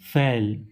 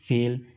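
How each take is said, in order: First: The vowel is an open 'ae' sound. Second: The vowel is a closed 'ay' sound. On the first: The speaker calls it wrong. "और हम लोग इसे क्या पढ़ते हैं" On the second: The speaker calls it right. "ए की मात्रा से"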